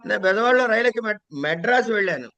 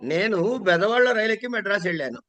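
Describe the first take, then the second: First: The word 'Madras' is stressed. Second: The first word, 'nenu', is stressed. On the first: The traveller reached this city without getting off midway. "నెల్లూరులోనో కావల్లోనో దిగిపోలే" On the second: The speaker went, not someone else. "నేను దగ్గర నొక్కారనుకోండి"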